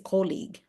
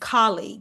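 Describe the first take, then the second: First: The first vowel sounds like 'oh'. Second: The first vowel sounds like 'ah'. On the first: The speaker calls it wrong. "in the Philippines, we always say colleague" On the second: The speaker calls it right. "it's almost like a C A instead of a an O"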